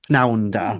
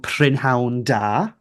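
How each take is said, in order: First: The first word is clipped to one syllable. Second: The first word is said in full. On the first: A casual, less posh northern greeting. "So we shorten it to Pnawn da" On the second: The standard, slightly formal greeting. "the second one"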